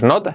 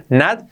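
First: Not with a Spanish-style O; O vowel in not. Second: Not said like "nat"; open vowel in not. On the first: Teacher showing the mistake, not with an O. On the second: Teacher correcting learners, not as "nat". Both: Shown as a demonstration. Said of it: "no es not, not".

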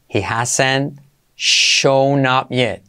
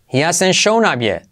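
First: Very slow, every word stretched. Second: Said in the usual way. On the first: Shown as a demonstration. Teacher to students, very slow dictation pace. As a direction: dictate it slowly for learners. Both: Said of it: "slow model then normal".

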